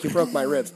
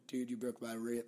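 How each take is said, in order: First: Said in the usual way. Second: Mumbled stab at British; attempted British accent. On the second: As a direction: try a British accent and barely manage it. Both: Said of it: "I don't know how to do a British accent".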